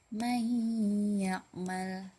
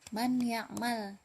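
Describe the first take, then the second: First: The n merges into a long nasal y. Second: The n is pronounced clearly before the y. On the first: The speaker calls it right. "dimasukkan dengan gunnah, dengan tempo yang dipanjangkan" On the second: The speaker calls it wrong. "bukan man ya'mal"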